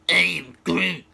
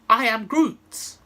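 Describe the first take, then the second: First: It is said in a rude, hostile tone. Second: It is said in a friendly, greeting tone.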